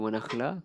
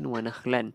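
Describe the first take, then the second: First: The last word ends on a vowel. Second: The last word ends with an n sound. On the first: This is the form used when stopping at the word. "bila kita berhenti menghilang satu baris dia, dia akan jadi wa nakhla" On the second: This is the full form read without stopping. "asalnya kan wa nakhlan"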